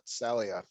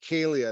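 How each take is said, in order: First: It begins with a hissing s sound. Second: It begins with a hard k sound. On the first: The speaker calls it wrong. "not Salia. I was saying it wrong" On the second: The speaker calls it right.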